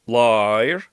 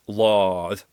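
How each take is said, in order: First: "liar" with the vowel sliding into the R; learner mistake. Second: "lard." with a crisp, deliberate R at the end; deliberate Gaelic R. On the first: Teacher imitating learners' mistake, sliding into R. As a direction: demo the wrong slide into the R of "liar". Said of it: "I often hear people saying". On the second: Teacher modelling the correct R, deliberately. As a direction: clip the R of "lard." cleanly, no slide. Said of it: "we have to learn this very, very deliberately". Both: Shown as a demonstration.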